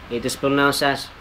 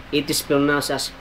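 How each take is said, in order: No difference in how they are said.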